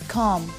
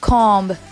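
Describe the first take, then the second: First: No b sound is heard at the end. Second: A b sound is heard at the end. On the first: The speaker calls it right. "it's comb" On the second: The speaker calls it wrong. "So it's not comb"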